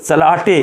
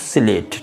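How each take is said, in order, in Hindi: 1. इसमें 'ah' स्वर है और अतिरिक्त अक्षर हैं। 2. इसमें 'ay' स्वर है और एक ही अक्षर है। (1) "ऐसे नहीं" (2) "तो स्लेट"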